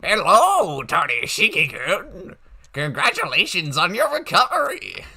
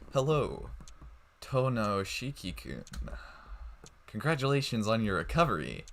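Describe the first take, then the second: First: It is read in a put-on old man's voice. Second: It is read in the speaker's normal voice.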